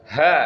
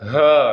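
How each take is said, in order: First: The h is light and comes from the throat. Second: The h is deep, pushed down toward the chest. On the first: The speaker calls it right. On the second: The speaker calls it wrong.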